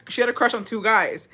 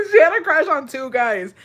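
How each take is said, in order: First: Said in the usual way. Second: Laughing. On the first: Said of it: "repeats after laughing". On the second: Real, not acted. Laugh just before.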